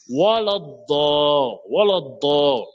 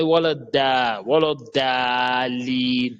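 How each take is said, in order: First: WALADDA ending in a heavy rounded DO, drawn out; correct emphatic DO. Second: WALADDA with a thin d and open a; wrong light DA. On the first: Shown as a demonstration. Teacher reciting the verse correctly, emphatic d. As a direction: chant WALADDA slowly with the last vowel darkened to o. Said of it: "c'est do". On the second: Retold or imitated. Teacher imitating the common mistake, drawn-out light da. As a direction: chant WALADDALIN slowly with a plain DA. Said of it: "Non, ce n'est pas da".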